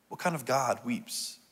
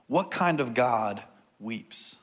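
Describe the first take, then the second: First: Much softer, in one quiet run; hushed repeat. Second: Drawn out, with a pause before the last word; slow, weighty question. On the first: Preacher repeating the question to congregation, hushed. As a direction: ask it quietly, as if to ponder. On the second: Preacher posing an important question to congregation, slow and weighty. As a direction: pose it slowly and let it hang. Poses key question, then repeats it. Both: Real, not acted.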